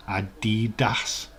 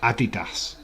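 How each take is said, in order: First: Adidas slow, leaning on the "DEE"; Adidas as "a-DEE-das"; stress on middle syllable. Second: Said in the usual way. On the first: Shown as a demonstration. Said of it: "emphasising the wrong part of". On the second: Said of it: "emphasising the wrong part".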